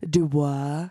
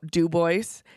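First: The name is given a French-style pronunciation. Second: The name is given a plain English pronunciation. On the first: It sounds fancy. The speaker calls it wrong. "we're not that fancy" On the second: It is how the locals say it. The speaker calls it right.

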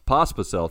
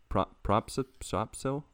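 First: The name has no r sound. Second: The name has an added r sound. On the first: The speaker calls it right. "thank you" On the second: The speaker calls it wrong. "I added an R in there"

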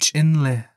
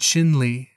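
First: The name is pronounced the Navajo way. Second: The name is pronounced the English way. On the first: "using the Diné pronunciation" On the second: "using the English pronunciation"

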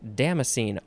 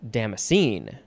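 First: The stress is on the first syllable. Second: The stress is on the last syllable. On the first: "First syllable" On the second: "last syllable can be emphasized"

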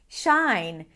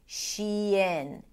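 First: It is said as one syllable, shine. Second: It is said as two syllables, she-in. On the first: The speaker calls it wrong. "people tend to pronounce it as shine" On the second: The speaker calls it right. "shifting between the high E of the she to the lax I of the in"

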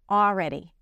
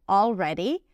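First: The L sound is left out. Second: The L sound is clearly pronounced. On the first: "you can drop the L" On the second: "she pronounces it with the L"

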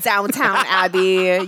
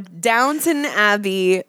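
First: The first word is said as downtown. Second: The first word is said as downton. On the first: The speaker calls it wrong. "Not Downtown Abbey" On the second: The speaker calls it right. "No, Downton Abbey"

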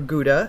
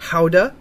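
First: Gouda is pronounced the American English way. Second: Gouda is pronounced the local Dutch way.

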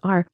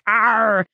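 First: The r sound is plain and unexaggerated. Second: The r sound is heavily exaggerated and growled. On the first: The speaker calls it right. "no, it's just R" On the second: The speaker calls it wrong. "sounding like a pirate"

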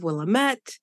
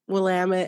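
First: The name is said the outsider way. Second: The name is said the local way. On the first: This is how an outsider would say it. The speaker calls it wrong. "instead of Willamette" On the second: This is how locals say it. The speaker calls it right. "you wouldn't know it's, you know, Willamette"

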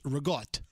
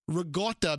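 First: It is said with its final vowel dropped. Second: It is said with its final vowel kept. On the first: "you drop the vowels. Regatta becomes regot" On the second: "you drop the vowels"

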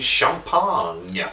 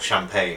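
First: The word is pronounced the French way. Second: The word is pronounced the English way. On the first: "the dignification of a French pronunciation" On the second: "Or champagne, as we say"

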